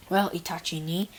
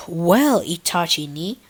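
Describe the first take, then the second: First: Said in the usual way. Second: "ni" stressed with a rising tune. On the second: Acted. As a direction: lean hard on "ni", lift it up. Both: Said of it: "I made sure to put extra emphasis on the knee part".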